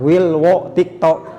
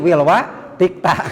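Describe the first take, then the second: First: The vowels are pronounced as 'o' sounds. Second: The vowels are pronounced as 'a' sounds. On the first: This is the Javanese form of the name. "Tapi kade orang Jawa teh" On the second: This is the Sundanese form of the name. "datang ke orang Sunda jadi"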